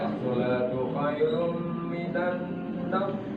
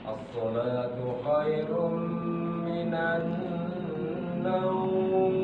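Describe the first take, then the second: First: The last word's vowel is cut short. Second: The last word's vowel is held long. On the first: The speaker calls it wrong. "itu terlalu cepat" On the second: The speaker calls it right. "boleh enam harokat"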